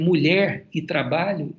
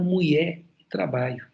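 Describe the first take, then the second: First: It is said with standard Portuguese sounds. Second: It is said with Tupi-influenced sounds. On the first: "Ao invés de dizer" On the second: "eles falaram português com fonética tupi"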